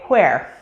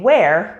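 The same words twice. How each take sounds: First: It begins with a breathy H before W. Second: It begins with a plain W sound. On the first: "they may say where" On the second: "instead of saying where"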